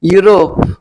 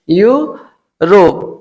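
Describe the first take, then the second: First: Said in the usual way. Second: यूरोप stretched into a slow "yoo ... rop"; syllable by syllable. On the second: Shown as a demonstration. Teacher shows the class that EU reads यू, यूरोप slowly broken in two. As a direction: split यूरोप after a long यू, with a pause before रोप. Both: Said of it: "यू से पढ़ते हैं".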